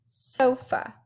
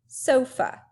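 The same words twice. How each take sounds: The two takes are said the same way.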